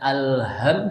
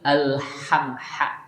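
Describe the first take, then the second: First: The h sound is weak and unclear. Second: The h sound is clear and breathy. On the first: The speaker calls it wrong. "jangan alham" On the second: The speaker calls it right. "haknya itu agak bersih"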